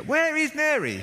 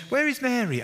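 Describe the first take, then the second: First: Very high, loud, drawn-out wail for Mary; the last straw, stretch it out; a stressed sister cracking in the kitchen; frustrated Martha. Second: High, loud call for her sister; where has she got to; exasperated Martha. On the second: Martha looking for Mary. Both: Retold or imitated.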